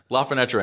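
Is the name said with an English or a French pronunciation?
English. The name is said with an English pronunciation. The speaker calls it wrong. "isn't even right"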